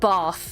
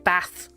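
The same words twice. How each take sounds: First: It is said in a non-Northern accent. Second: It is said in a Northern English accent.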